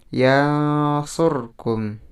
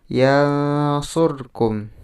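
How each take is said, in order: The two takes are said the same way.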